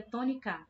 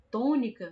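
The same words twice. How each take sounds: First: "tônica" with the last syllable stressed, to-ni-CÁ. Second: "tônica" with a strong, lengthened first syllable TÔ; stress on TÔ. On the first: Teacher shows pupils another wrong stress, "tônica" said to-ni-CÁ. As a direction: save the weight for final CA. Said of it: "E se fosse o K". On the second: Teacher shows how we really say it, "tônica" stressed on TÔ. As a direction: hit TÔ and let "-nica" drop. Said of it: "a gente percebe que o tó". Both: Shown as a demonstration.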